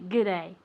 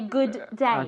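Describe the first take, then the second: First: The words are shortened and run together. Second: Both words are said fully and separately. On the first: "so we just say good day" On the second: "we're too lazy to say good day"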